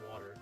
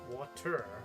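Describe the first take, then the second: First: The middle consonant is a soft D sound. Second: The middle consonant is a crisp T sound. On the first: This form rolls off the tongue more easily. "At least not as well as water" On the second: This is the form one is supposed to use. "obviously we're supposed to say water"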